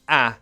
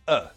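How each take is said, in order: First: The vowel is full and clearly pronounced. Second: The vowel is reduced to a schwa. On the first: The speaker calls it wrong. "we don't pronounce them a and an like that" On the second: The speaker calls it right. "Just a schwa sound"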